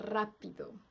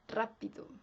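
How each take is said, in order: No difference in how they are said.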